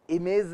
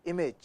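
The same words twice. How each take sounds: First: "इमेज" said as i-mez; wrong "z" ending. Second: "इमेज" as i-mej; soft, short "इमेज" with j ending; correct pronunciation. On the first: Teacher showing what not to say, z mispronunciation. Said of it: "नहीं". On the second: Teacher giving the correct word, careful pronunciation. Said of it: "English का word है इमेज". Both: Shown as a demonstration.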